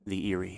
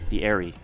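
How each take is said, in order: First: The first vowel sounds like 'ear'. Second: The first vowel sounds like 'air'. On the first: The speaker calls it wrong. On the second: The speaker calls it right.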